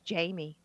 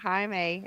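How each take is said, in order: First: The name is said like English Jamie. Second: The name is said the Spanish way. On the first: This is how the name was wrongly assumed to be said. The speaker calls it wrong. "I thought his name was Jamie" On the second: This is how the character actually says the name. The speaker calls it right. "when he pronounced it Jaime"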